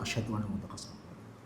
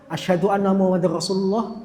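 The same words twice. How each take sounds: First: The phrase is said softly and quietly. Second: The phrase is said loudly and openly.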